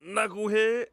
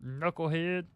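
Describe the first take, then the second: First: High, loud growling impression; pushed, growly pundit voice, pitched way up; Charles Barkley. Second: Lightly imitated basketball pundit; a slightly raised, put-on voice; half-committed impression of a TV analyst; Charles Barkley. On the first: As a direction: growl into it from the top. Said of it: "you had too much growl". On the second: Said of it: "teaching me the Charles Barkley".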